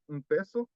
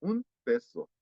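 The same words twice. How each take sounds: First: "un peso" in one piece as "umpeso"; linked, N as M. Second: "un peso" broken after a clear N; N kept, with pause. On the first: Teacher giving the expected form, "un peso" linked by M. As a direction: join "un" to "peso" with no gap. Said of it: "en vez de pronunciar un peso". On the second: Teacher showing what Koreans say, "un" separated from "peso". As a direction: say "un", stop, then "peso". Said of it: "N debe pronunciar con, con, con, como N". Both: Shown as a demonstration.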